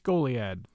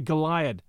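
First: The first syllable is stressed. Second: The first syllable is not stressed. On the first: The speaker calls it right. "with emphasis on the goal sound" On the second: The speaker calls it wrong. "I just naturally say Goliad"

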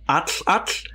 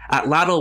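First: The final 'tl' is a voiceless sideways hiss. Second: The final 'tl' is a plain voiced t-l.

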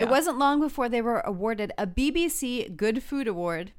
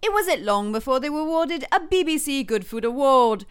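First: It is spoken in a plain, non-British accent. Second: It is spoken in a put-on British accent.

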